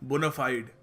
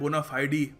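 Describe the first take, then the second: First: It ends on 'fide' with no extra vowel. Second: It ends with an extra 'ee' sound.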